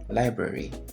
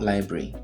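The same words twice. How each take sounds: First: The word is said with three syllables. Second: The word is said with two syllables. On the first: The speaker calls it right. "This is actually not a two-syllable word" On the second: The speaker calls it wrong.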